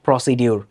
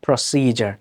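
First: The middle consonant is a 'd' sound. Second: The middle consonant is a 'j' sound. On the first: The speaker calls it wrong. "not procedure" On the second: The speaker calls it right. "But the correct pronunciation is প্রসিজার"

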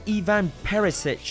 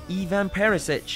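The two takes are said the same way.

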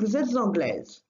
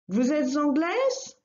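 First: The voice falls at the end. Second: The voice rises at the end.

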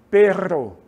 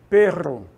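No difference in how they are said.

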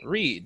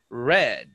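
First: The vowel is long, rhyming with seed. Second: The vowel is short, rhyming with bed. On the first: It is the present tense. "the present is read" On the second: It is the past tense. "red, like the color"

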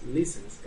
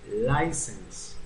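First: The first vowel sounds like 'ee'. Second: The first vowel sounds like 'eye'. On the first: The speaker calls it wrong. "no es license" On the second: The speaker calls it right. "es license. A, ahí sí la hice, pronuncia como I"

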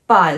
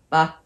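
First: The syllable has a falling tone. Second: The syllable has a short neutral tone. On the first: "ba is down" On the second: "that's just neutral"

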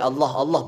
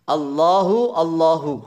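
First: Each word stops without the final 'u' vowel. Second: Each word ends with a clear final 'u' vowel. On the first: The speaker calls it wrong. "Enggak boleh wakaf. Enggak boleh Allah Allah begitu enggak" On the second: The speaker calls it right. "Hunya dibaca"

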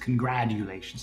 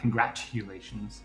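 First: The middle consonant sounds like a soft D. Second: The middle consonant sounds like a crisp T. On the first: The speaker calls it right. "How dare it have a T in it when it's congratulations" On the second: The speaker calls it wrong. "not congratulations"

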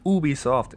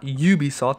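First: The name is said with French pronunciation. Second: The name is said with English pronunciation. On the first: The speaker calls it right. "It's French" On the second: The speaker calls it wrong. "It's not Ubisoft"

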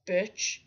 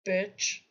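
No difference in how they are said.

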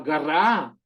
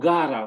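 First: The stress is on the last syllable. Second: The stress is on the first syllable. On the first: She lives there now. "закінчення на останній склад" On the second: She lived there in the past. "гара – це наголос на перший склад в минулому часі"

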